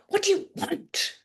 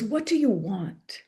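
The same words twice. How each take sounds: First: Mentor's probing question with a high stress on "do". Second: Said in the usual way. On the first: Retold or imitated. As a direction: ask "What do you want?" pressing the word "do". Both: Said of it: "he would say it like".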